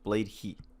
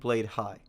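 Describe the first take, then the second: First: The second word rhymes with 'see'. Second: The second word rhymes with 'sky'. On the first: The speaker calls it right. "it's apparently pronounced Blade He" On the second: The speaker calls it wrong. "I've been pronouncing it wrong in my videos and been saying Blade High"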